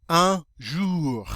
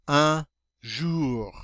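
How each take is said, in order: No difference in how they are said.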